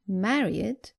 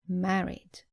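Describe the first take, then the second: First: The ending is said as an extra syllable. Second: The ending adds no extra syllable. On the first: The speaker calls it wrong. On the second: The speaker calls it right.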